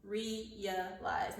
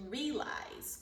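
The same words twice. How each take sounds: First: "Realize" as three syllables, REE-uh-lize; three-syllable pronunciation. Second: "realize" as two syllables, REE-lize; alternative two-syllable pronunciation. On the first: Teacher showing students a new word, "Realize" said ree-uh-lize. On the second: Teacher giving the dictionary's other pronunciation, "realize" said ree-lize. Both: Shown as a demonstration. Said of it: "it can be another pronunciation".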